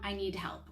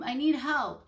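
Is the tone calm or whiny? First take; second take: calm; whiny. First: It is said in a calm, polite tone. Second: It is said in a whiny, frustrated tone. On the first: The child is ready to accept help. The speaker calls it right. "I give them the tone and the words to say" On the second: The child is still working through frustration. The speaker calls it wrong. "that's not the tone that I modeled"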